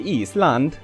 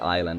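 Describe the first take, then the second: First: The word is given an Icelandic pronunciation. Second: The word is given an English pronunciation. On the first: "I'm not gonna be remembering to say Island" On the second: "my brain is in an English kind of mode. So if I see island here, I'm gonna say island"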